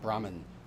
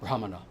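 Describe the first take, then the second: First: The word is said with two syllables. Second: The word is said with three syllables. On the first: This is the form the British started using. The speaker calls it wrong. "not Brahmin. The British started saying that" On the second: This is the original form of the word. The speaker calls it right. "That's how you say it"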